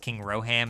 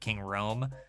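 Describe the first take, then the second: First: The name is said as Roham. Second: The name is said as Rome. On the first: This is the misunderstood version used as a meme. The speaker calls it wrong. "I thought it was King Roham" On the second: This is the intended name. The speaker calls it right. "instead of King Rome"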